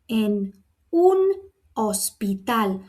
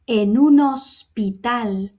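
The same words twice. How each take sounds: First: Each word is pronounced separately. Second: The words run together without breaks. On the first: The speaker calls it wrong. "If I was going to pronounce it individually" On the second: The speaker calls it right. "I'm going to run them together"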